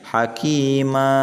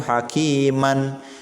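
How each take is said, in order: First: The word ends with a lengthened vowel, no n. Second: The word ends with a final n sound. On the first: This is how it is read when stopping at a verse end. "dibacanya hakima, maknya dibaca panjang ya, dua harokat" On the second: This is the word's original form. "asal katanya itu hakiman"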